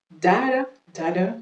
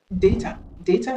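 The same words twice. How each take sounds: First: DATA said "DA-duh"; American DATA, "dah-da"; American pronunciation. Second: DATA said "DAY-tuh"; British DATA, "DAY-ta"; British pronunciation. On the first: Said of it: "c'est la prononciation américaine". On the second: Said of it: "c'est la prononciation british". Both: Shown as a demonstration.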